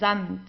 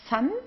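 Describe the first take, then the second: First: It begins with a buzzing voiced z sound. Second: It begins with a hissing voiceless s sound. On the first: The speaker calls it right. "we pronounce the S like in uh, the English Z" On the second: The speaker calls it wrong. "so it's not"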